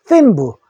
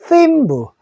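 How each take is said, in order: Both takes have the same delivery.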